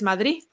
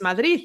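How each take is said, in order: First: The final consonant is dropped. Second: The final consonant is clearly pronounced. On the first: "se comen las palabras de la letra del final" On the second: "no es Madrid"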